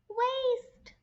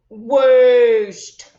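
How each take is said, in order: First: It is said in a tiny, squeaky mouse voice. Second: It is said in a deep, growly monster voice. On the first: "can you say it in a mouse voice?" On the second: "How about in a monster voice?"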